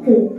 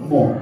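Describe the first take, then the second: First: The syllable is said with an 'u' vowel. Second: The syllable is said with an 'o' vowel. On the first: The speaker calls it right. "Yang benar itu mu" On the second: The speaker calls it wrong. "Kadang orang Jawa gitu, mo"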